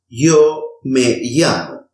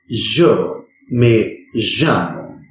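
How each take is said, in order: First: The y and ll are soft, y-like sounds. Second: The y and ll are buzzing, vibrant sounds. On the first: "pronounce both of them as a soft E sound" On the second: "pronounce it as a vibrant sound"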